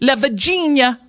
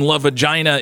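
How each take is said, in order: First: The name is said in an Italian-style accent. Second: The name is said in a plain American accent.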